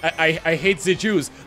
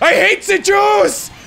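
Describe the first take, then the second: First: It is said quietly and hesitantly. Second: It is said loudly and forcefully.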